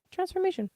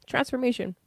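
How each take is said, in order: First: Transformation said again, pitched much higher for emphasis; stressed Transformation. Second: Said in the usual way. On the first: Shown as a demonstration. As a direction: lift Transformation up high to land it.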